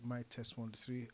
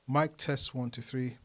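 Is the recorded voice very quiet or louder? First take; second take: very quiet; louder. First: The recorded voice is very quiet. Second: The recorded voice is louder. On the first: The speaker calls it wrong. "it's very, very low" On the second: The speaker calls it right. "boosting the Saramonic Air's receiver to plus three"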